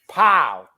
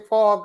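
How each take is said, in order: First: The name rhymes with cow, with no L sound. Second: The name ends with an L sound, like Paul. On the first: The speaker calls it right. "It's Pow, like P O W" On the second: The speaker calls it wrong. "I hate when people say Paul Gasol"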